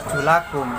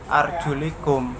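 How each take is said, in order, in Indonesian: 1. Vokal setelah L adalah 'a' terbuka. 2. Vokal setelah L adalah 'i' tertutup. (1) "Lafadz yang dibaca arjulakum yaitu atof kepada aidiyakum" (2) "lafadz yang dibaca arjulikum yang atof kepada biru'usikum"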